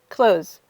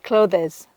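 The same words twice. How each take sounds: First: The th sound is dropped from the word. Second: The th sound is pronounced in the word. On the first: The speaker calls it right. "just don't even say the T H. Pretend like it doesn't exist" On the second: The speaker calls it wrong. "So many of my students say clothes. Nope"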